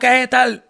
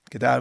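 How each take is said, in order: First: The voice is high and lively. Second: The voice is low and calm. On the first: The speaker calls it wrong. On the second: The speaker calls it right.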